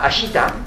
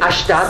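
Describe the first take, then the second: First: The vowel after sh is clearly pronounced. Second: The vowel after sh is dropped. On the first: The speaker calls it wrong. "On ne dit pas Ashita" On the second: The speaker calls it right. "on avait vu Ashta"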